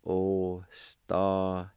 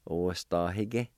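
First: Ostahique stretched syllable by syllable, o-sta-hi-que; slow, drawn out. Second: Said in the usual way. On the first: Shown as a demonstration. Teacher slowing the word goodness for learners. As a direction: draw Ostahique out slowly. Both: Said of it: "It's pronounced like this".

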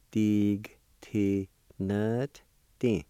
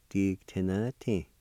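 First: "Dig, T, nut, D" slowly, in separate pieces; syllable by syllable. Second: Said in the usual way. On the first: Shown as a demonstration. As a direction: leave a gap after each syllable. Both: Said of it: "pronounce that T sound with the N V like this".

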